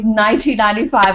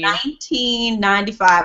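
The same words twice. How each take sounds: First: It is said at a faster pace. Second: It is said at a slower pace.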